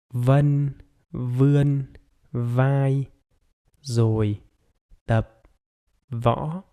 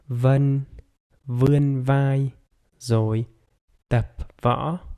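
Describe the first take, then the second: First: The sentence is spoken very slowly. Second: The sentence is spoken somewhat slowly.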